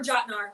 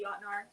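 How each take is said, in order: First: The name begins with a plain J sound. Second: The name begins with a breathy H-like sound. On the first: "Or Jotnar" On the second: "I say it with a kind of like an H"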